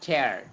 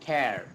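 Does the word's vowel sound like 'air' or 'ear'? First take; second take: air; air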